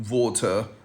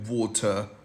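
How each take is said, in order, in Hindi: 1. यह शब्द British accent में बोला गया है। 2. यह शब्द ब्रिटिश एक्सेंट में बोला गया है।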